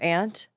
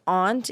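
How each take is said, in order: First: The vowel is a flat 'a' as in 'pant'. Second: The vowel is an open 'ah' sound.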